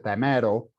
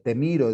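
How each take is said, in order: First: The vowels are mixed up, Quechua style. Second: The vowels are said in standard Spanish. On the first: "dice tamero, ... confunde la I con la E" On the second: "en vez de decir eh"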